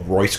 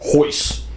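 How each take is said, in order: First: The name begins with an R sound. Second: The name begins with an H sound. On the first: "when I first started like reading it, I was like, oh" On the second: "listen to the broadcast"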